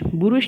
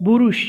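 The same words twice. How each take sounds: First: A vowel is heard between the b and r. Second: The same.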